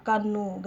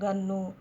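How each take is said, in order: First: కన్ను అని మొదటి అక్షరం క గట్టిగా పలకండి; కన్ను - క శబ్దంతో స్పష్టంగా చెప్పండి. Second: గన్ను అని క బదులు మెత్తని గ పలకండి; గన్ను - గ శబ్దంతో సరళంగా చెప్పండి. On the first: (కన్ను అని పరుష క తో) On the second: (గన్ను అని సరళ గ తో) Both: Shown as a demonstration. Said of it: "కా దగ్గర గ అంటాం".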